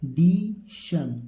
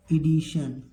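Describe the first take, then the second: First: ईडिशन very slowly, long ee, di, shun; drawn-out teaching model of ईडिशन; syllable-by-syllable reading. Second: Said in the usual way. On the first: Shown as a demonstration. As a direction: stretch ईडिशन out in parts. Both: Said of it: "इसको क्या पढ़ेंगे?".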